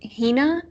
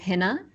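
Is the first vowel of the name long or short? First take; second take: long; short. First: The first vowel is a long i sound. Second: The first vowel is a short i sound. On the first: This is how a famous actress with the same name says it. "she pronounces it Hina" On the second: This is how the speaker says her own name. "I pronounce my name Hina with a short I"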